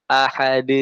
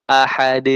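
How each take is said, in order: The two takes are said the same way.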